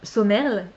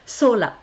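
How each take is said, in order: First: The name is said with an M sound. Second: The name is said without an M sound. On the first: The speaker calls it wrong. "moi je me voyais déjà le prononcer euh, Somerle" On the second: The speaker calls it right. "ça se dit Sola"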